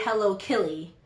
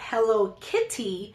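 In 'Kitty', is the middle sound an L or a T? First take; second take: L; T. First: The middle consonant of Kitty is an L. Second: The middle consonant of Kitty is a T. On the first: "I actually say Hello Killy" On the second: "whenever I say Hello Kitty"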